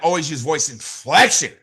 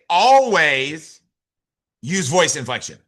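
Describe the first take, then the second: First: The word inflection carries the main stress. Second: The word always carries the main stress. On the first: The voice must really be varied. "you got to really inflect your voice" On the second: It must be done at all times. "That means you always gotta use voice inflection"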